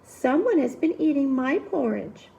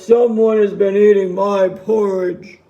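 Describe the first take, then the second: First: It is said in a medium-sized voice. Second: It is said in a loud, big voice.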